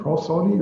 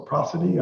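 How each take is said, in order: First: "prosody" said with a long O, like PRO-so-dee; testing out "prosody" as PRO-so-dee; unsure pronunciation. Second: "prosody" said with a short A, like PRAH-suh-tee; other pronunciation. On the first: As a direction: tries "prosody" with the first syllable rhyming with "go". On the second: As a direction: settles on "prosody" with the first syllable rhyming with "ma". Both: Shown as a demonstration. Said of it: "I don't know how you pronounce that word".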